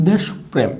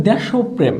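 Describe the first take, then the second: First: দেশপ্রেম as "desh-prem"; no linking o. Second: দেশপ্রেম as "desho-prem"; linking o. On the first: Teacher shows the quiz word, দেশপ্রেম without a linking o. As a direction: close দেশ on শ, then প্রেম. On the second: Teacher shows the quiz word, দেশপ্রেম with a linking o. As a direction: sound an o after the শ in দেশপ্রেম. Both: Shown as a demonstration. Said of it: "এটার উচ্চারণ কি হবে".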